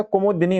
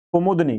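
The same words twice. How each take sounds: First: कुमुदनी said with "di-ni"; correct short i. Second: कुमुदनी said with "da-ni"; wrong middle vowel. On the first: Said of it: "छोटी ई की मात्रा लगी". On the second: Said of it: "कुमुदनी नहीं होता". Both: Shown as a demonstration.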